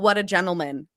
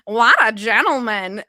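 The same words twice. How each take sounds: First: It is said in the speaker's normal voice. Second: It is said imitating Lois Lane from Family Guy.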